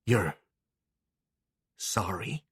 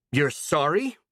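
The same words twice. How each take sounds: First: Hushed, quiet disbelief; softly. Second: Higher, louder disbelief. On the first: A girl hearing her old tormentor apologise, softly. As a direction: ask it softly, the calm before the storm. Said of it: "Clara said softly". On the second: A girl turning on the old woman, louder. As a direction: raise the voice in rising anger. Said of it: "she said louder". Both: Acted.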